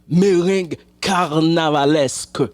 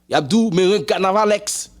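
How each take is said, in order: First: The last word ends with an 'esk' sound. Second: The last word ends with an 'eks' sound. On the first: The speaker calls it right. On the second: The speaker calls it wrong.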